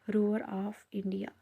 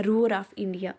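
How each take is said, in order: First: "roar of India" drawn out very slowly; slow, deliberate repeat of "roar of India"; slow dictation. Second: Said in the usual way. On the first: Real, not acted. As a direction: say "roar of India" word by word, stretched for note-takers. Teacher dictates name after spelling it.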